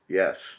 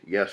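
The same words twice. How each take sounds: First: The word is said in a clear, confident voice. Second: The word is croaked in a rough, weak voice. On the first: The speaker calls it right. "that sounded more confident" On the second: The speaker calls it wrong. "I croak"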